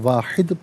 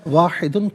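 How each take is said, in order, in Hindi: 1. शब्द सीधे आखिरी व्यंजन पर खत्म होता है। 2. शब्द के अंत में एक अतिरिक्त 'un' ध्वनि जुड़ती है। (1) "वफ़ की सूरत में वाहिद पढ़ा जाएगा" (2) "वाहिदुन पढ़ेंगे"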